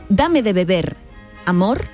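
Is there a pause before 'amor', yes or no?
yes. There is a pause before amor.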